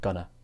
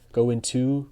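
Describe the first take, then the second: First: The words are joined with a weak ta sound. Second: Both words are said fully and separately. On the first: This is how people say it when speaking. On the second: This is the form used in writing.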